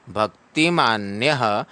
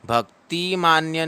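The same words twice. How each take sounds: First: भक्तिमान्यः ending with a short breathed "ha"; भक्तिमान्यः with the visarga as a quick h; visarga sounded. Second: भक्तिमान्य cut off with no final "ha"; भक्तिमान्य ending flat on "ya"; the mistaken भक्तिमान्य without visarga; wrong reading without visarga. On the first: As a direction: end भक्तिमान्यः on a light "ha". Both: Shown as a demonstration. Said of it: "भक्तिमान्य नहीं पढ़ना है".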